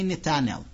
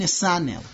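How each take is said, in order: First: The middle consonant is a t sound. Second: The middle consonant is an s sound. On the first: This is how the name's owner says it. The speaker calls it right. "And I'd say Netanel" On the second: This is how other people say the name. The speaker calls it wrong. "you mean Nisanel?"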